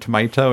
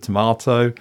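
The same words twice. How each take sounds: First: It is said with an American pronunciation. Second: It is said with a British pronunciation. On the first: "I may throw in the odd word, like saying tomato" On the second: "instead of tomato"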